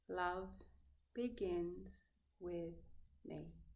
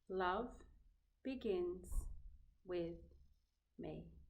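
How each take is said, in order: Both takes have the same delivery.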